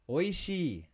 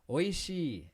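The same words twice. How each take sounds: No difference in how they are said.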